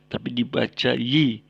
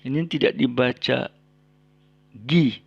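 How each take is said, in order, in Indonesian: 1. Suku kata itu diawali bunyi y. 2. Suku kata itu diawali bunyi g yang keras. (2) "tidak dibaca gi"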